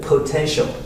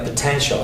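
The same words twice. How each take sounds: First: The word is said with strong, drawn-out emphasis. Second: The word is said plainly without extra emphasis. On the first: "he's stressing potential more" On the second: "normal pronunciation is like potential"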